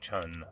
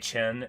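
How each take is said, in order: First: The vowel sounds like 'un' in 'fun'. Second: The vowel sounds like 'en' in 'hen'. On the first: The speaker calls it right. "it's almost definitely like Chun" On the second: The speaker calls it wrong. "I say Chen"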